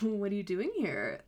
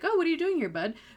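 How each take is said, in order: First: It sounds knowing and conspiratorial. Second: It sounds casual and innocent.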